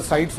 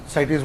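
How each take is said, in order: First: "cites" said as SYTS; one-syllable pronunciation. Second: "cites" said as SY-teez; two-syllable pronunciation. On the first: Teacher telling students how to pronounce it, one-syllable pronunciation. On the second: Teacher telling students either is fine, two-syllable pronunciation. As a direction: stretch "cites" into two syllables, ending -eez. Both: Shown as a demonstration. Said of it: "you can pronounce it as".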